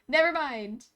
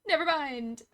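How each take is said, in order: Both takes have the same delivery.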